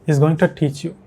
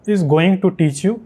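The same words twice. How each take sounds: First: Native English accent, linked words, TO as "tuh"; imitated native accent. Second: Slow Indian English, every word separate; normal Indian accent. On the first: Teacher showing how natives say it, native English accent. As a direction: mimic native English accent in connected speech. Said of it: "ये कुछ इस तरह से बोलते हैं". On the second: Teacher showing how Indians normally say it, Indian accent. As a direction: say it in an Indian accent with a full "too". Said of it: "normally जैसे हम बोलेंगे हम लोग इंडियन में". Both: Shown as a demonstration.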